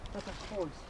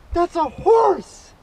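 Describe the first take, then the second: First: Hushed, almost under the breath; barely voicing it in disbelief; a quiet stunned mutter; awed murmur. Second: Higher, louder, drawn out in awe; thrilled shout of wonder; excited exclaim. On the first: Awed murmur at big fish. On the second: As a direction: proclaim the catch with glee. Thrilled by personal best fish. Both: Real, not acted.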